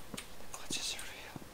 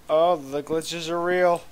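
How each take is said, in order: First: Slow, very soft whispered echo. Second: Said in the usual way. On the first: Real, not acted. Player echoing own remark about game glitches, slow whisper. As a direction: whisper it slowly, barely audible.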